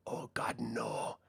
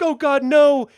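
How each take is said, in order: First: Whispered, taunting repeat of the plea; mocking whispered echo. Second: High, loud terrified cry; doomed crew begging, high and loud; panicked victims. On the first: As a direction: hiss it back at them as a cruel joke. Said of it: "Just repeating, parroting back". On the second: Retold or imitated. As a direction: cry out in desperate fear. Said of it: "these guys are like".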